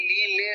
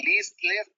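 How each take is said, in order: First: লি, লে ending on open vowels; silent final letter. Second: লিস, লেস with the final s sounded; final s pronounced. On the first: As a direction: say লি, লে with no s at the end. (লি, লে, শেষের অক্ষর উচ্চারণ না করে) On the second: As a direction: say লিস, লেস ending on an audible s. (লিস, লেস, শেষের স উচ্চারণ করে) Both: Shown as a demonstration. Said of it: "final letter উচ্চারণ করছি না".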